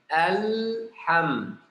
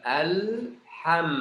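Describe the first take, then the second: Both takes have the same delivery.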